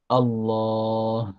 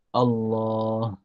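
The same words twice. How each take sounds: The two takes are said the same way.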